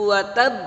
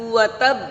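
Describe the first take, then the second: Both takes have the same delivery.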